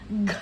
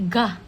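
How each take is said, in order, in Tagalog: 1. Ang katinig ay binibigkas nang mag-isa, walang patinig. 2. Ang katinig ay sinusundan ng patinig na 'a'.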